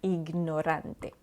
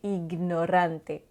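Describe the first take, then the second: First: The G is sounded separately before the N. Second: The same.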